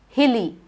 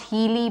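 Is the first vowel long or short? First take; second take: short; long. First: The first vowel is kept short. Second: The first vowel is drawn out long. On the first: The speaker calls it right. "but hilly. Short" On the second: The speaker calls it wrong. "It is not hilly"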